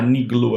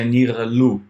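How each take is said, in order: First: The middle consonant is a hard g stop. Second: The middle consonant is a throaty fricative. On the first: This is the easier, modern way to say it. "vou usar niglu aqui para não ficar, né, muito muito difícil" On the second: This is how it was said in biblical Hebrew. "no hebraico bíblico, né, seria nirlu"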